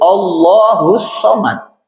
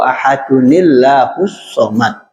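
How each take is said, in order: First: The opening vowel of Allahu is pronounced. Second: The opening vowel is dropped, linked to the previous word. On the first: The word starts the recitation. "Ini alifnya kalau dia di depan menjadi huruf hidup" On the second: The word is joined to the previous word. "kalau kita wasolkan ini alif jadi huruf mati, dia nggak akan bunyi"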